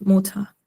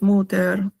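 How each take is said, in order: First: The word ends with a soft 'a' sound. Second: The word ends with a clear 'er' sound. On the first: The speaker calls it right. "se pronuncia como una a, ah, o sea, suave" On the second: The speaker calls it wrong. "no es muter"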